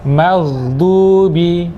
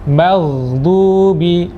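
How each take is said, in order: No difference in how they are said.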